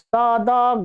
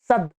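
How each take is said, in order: First: The word ends with an added vowel. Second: The word ends on a bare d sound. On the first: The speaker calls it wrong. "इसमें अ जोड़ देते हैं" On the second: The speaker calls it right. "द हलंत है"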